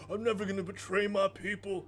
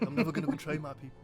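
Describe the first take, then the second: First: It is said in an exaggerated hick accent. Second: It is said without the hick accent. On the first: The speaker calls it wrong. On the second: The speaker calls it right.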